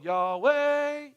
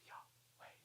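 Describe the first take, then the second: First: The word is spoken aloud in full voice. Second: The word is whispered without full voice. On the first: The speaker calls it wrong. "They don't go" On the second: The speaker calls it right. "It has to be whispered"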